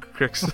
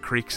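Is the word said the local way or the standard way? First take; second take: local; standard. First: It is said with the local pronunciation. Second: It is said with the standard pronunciation. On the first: "Those are called cricks in our area" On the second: "we have a lot of creeks in our area"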